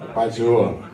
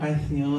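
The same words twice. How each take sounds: First: It is said in a deep, firm voice. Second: It is said in a soft, effeminate voice.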